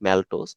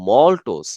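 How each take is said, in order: First: The first vowel sounds like 'a' in cat. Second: The first vowel sounds like 'o' in hot. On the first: The speaker calls it wrong. "ম্যালটোজটা কিন্তু ভুল উচ্চারণ" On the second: The speaker calls it right. "সঠিক উচ্চারণ কিন্তু মল্টোজ"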